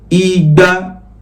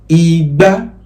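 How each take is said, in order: First: The pitch stays level on mid. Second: The pitch goes from mid to high. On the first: It means two hundred. "re, re, that's two hundred" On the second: It means calabash. "that is re, mi, that's calabash"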